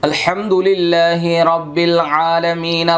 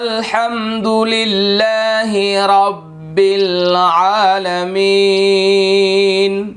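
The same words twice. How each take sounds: First: It is recited at a fast pace. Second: It is recited at a medium pace. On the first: This is for reading a lot or memorizing. "তাড়াতাড়ি যেভাবে আমরা পড়ি" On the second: This is for reciting in prayer. "মধ্যম গতির তিলাওয়াত"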